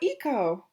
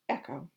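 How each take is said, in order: First: The name starts with a long 'ee' vowel. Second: The name starts with a short 'eh' vowel. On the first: The speaker calls it wrong. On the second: The speaker calls it right.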